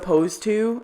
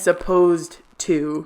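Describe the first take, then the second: First: The word 'supposed' is said without a D sound. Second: The word 'supposed' is said with a D sound. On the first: The speaker calls it wrong. "they say suppose like with no D" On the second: The speaker calls it right. "supposed to like with a D"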